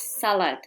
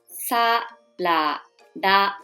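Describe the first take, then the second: First: It is said as the two-syllable English word. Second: It is said as three separate Japanese syllables. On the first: The speaker calls it wrong. "the pronunciation is not salad like English" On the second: The speaker calls it right. "You need to read each letter"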